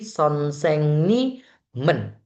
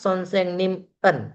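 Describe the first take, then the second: First: The particle runs together with the word. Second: The particle is split off from the word. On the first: The speaker calls it right. "Dia bacanya digabung" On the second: The speaker calls it wrong. "bukan sonsengnim en"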